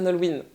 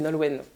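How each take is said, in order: First: The name is said with an American accent. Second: The name is said with a French accent.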